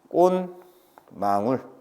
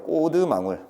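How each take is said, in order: First: The first syllable ends in an n sound. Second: The first syllable ends in a d sound. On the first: Nasalization has also applied. "마님은 앞에 걸 반 잘라요" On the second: Only the syllable-final rule has applied. "치읓 디귿 떼야지"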